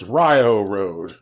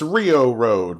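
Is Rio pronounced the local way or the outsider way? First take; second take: local; outsider. First: Rio is pronounced the way locals say it. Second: Rio is pronounced the way an outsider would. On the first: The speaker is from the area. The speaker calls it right. "but it's" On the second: The speaker is not from the area. The speaker calls it wrong. "if you were from out of town, you'd say"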